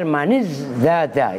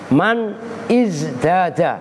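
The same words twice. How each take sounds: First: The two words are read linked without a break. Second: The two words are read separately with a break. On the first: "kalau dibaca langsung" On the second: "kalau dibaca putus-putus"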